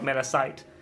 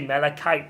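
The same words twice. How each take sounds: First: The middle consonant is a ch sound, like chalk. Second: The middle consonant is a hard k sound. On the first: The speaker calls it wrong. "not Malachite" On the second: The speaker calls it right. "so you do say Malachite"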